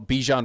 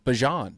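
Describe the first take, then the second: First: The first syllable sounds like 'bee'. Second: The first syllable sounds like 'bah'. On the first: This is the common way people say the name. The speaker calls it wrong. "we've all been saying it wrong" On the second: This is the name's real pronunciation. The speaker calls it right. "is actually"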